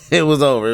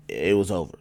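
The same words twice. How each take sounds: First: Louder, punched repeat; emphatic. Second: Said in the usual way. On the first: Real, not acted. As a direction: say it again with force. Repeats it louder after laughing.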